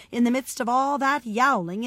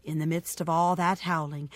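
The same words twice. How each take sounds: First: Lifted, stronger second refrain; rising refrain. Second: Low-pitched start of a build. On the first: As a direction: step up the noisy build. Second step rises over first. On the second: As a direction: begin the refrain low. First step of noisy build. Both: A narrator's reading.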